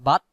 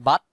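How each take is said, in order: The two takes are said the same way.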